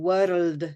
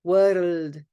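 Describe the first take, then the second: First: The R is a quick tongue tap. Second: The R is a quick tongue tap.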